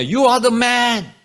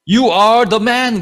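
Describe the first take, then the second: First: Very slow and higher, stretched out; raised, drawn-out accusation. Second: Very slow and louder, every word landing; prophet's slow loud indictment; slow accusing declaration. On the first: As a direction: drag each word out like a verdict. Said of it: "그러잖아요". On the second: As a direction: point the finger, word by word. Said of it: "뭐라 그럽니까". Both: Retold or imitated.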